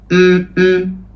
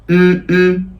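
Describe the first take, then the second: The two takes are said the same way.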